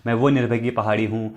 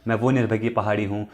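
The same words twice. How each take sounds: The two takes are said the same way.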